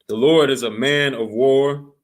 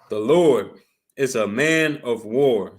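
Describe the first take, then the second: First: It is said at a quicker pace. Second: It is said more slowly.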